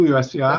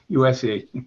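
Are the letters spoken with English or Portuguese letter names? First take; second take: Portuguese; English. First: The letters are spoken with Portuguese letter names. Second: The letters are spoken with English letter names. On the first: This is how it is said in Brazil. "No Brasil" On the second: This is how it is said in the United States. "aqui nos Estados Unidos"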